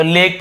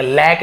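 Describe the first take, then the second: First: लेक with a long closed AY; लेक said with a clear ए; correct pronunciation. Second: लैक with a wide open AE; wrong pronunciation. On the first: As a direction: say लेक like English lake. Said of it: "तो लेक पढ़ेंगे". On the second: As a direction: misread lake as लैक, lack. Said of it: "लैक नहीं पढ़ेंगे". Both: Shown as a demonstration.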